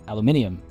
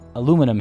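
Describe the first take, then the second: First: The word has five syllables. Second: The word has four syllables. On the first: This is the scientifically correct form. "I say aluminium, which is not only British but also correct" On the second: This is how people locally say it. "they say aluminum here"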